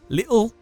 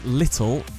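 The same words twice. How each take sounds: First: It is said in an attempted Cockney accent. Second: It is said in a plain, neutral accent. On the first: "He pronounces words like little ... as little" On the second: "words like little"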